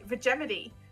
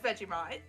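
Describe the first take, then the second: First: The word ends with a 'mitee' sound. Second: The word ends with a 'mite' sound. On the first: It jokingly copies how Yosemite is said. "so now we say Vegemity" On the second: This is the usual pronunciation. "It's pronounced Vegemite"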